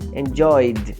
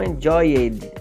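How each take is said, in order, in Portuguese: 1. A terminação é só um som de 'd'. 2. A terminação é uma sílaba extra 'id'.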